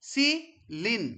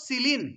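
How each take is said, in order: First: "সিলিন" split into সি and লিন; "সিলিন" broken apart, সি - লিন; syllable by syllable. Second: Said in the usual way. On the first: Shown as a demonstration. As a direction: say "সিলিন" as two syllables with a gap between. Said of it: "পেনিসিলিনকে যদি আমি ভাঙি". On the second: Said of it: "একটা কি পাবো?".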